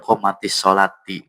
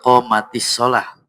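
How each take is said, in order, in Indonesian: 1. Kata terakhir berakhir dengan bunyi -ati. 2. Kata terakhir berakhir dengan bunyi -ah. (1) "Atau dia pada komatis solati" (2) "Melainkan kecuali"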